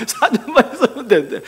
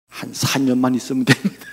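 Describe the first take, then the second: First: Laughing through 사 년만 있으면 되는데. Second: Said in the usual way. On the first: Real, not acted. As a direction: chuckle while repeating the four years. Pastor repeats it, laughing. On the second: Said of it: "이러는 거야".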